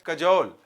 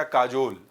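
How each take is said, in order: First: "कजोल" with a short first vowel; "कजोल", quick first syllable, long second; correct pronunciation. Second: "काजोल" with a long first "aa"; "काजोल", open long "kaa"; memory-trick pronunciation. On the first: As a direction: say "कजोल" with a brief "ka". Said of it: "इसका pronunciation है". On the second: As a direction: lengthen the first vowel of "काजोल". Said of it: "याद करना आसान हो इसलिए मैंने उसको बना दिया". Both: Shown as a demonstration.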